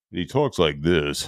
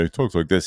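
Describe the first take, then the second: First: Imitating a streamer. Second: Said in the usual way.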